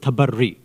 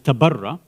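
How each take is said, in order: First: The word ends in an 'ee' vowel. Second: The word ends in an 'ah' vowel. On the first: The speaker calls it right. "The real word is tabarri" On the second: The speaker calls it wrong. "mentioned incorrectly as tabarra"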